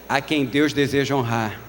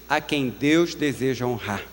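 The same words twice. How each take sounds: The two takes are said the same way.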